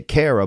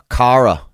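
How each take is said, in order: First: "Cara" with the vowel of care, KAIR-a; American pronunciation. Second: "Cara" with an open ah, KAH-ra; Irish pronunciation. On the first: Shown as a demonstration. Comparing American and Irish names, KAIR-a. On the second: Retold or imitated. Recalling how he heard the name in Ireland, KAH-ra. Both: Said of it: "We say Cara".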